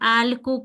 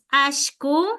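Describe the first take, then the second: First: The middle consonant is a single l. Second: The middle consonant sounds like sh. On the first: "decimos solo con alku con una L" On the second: "hay unos que decimos ashku"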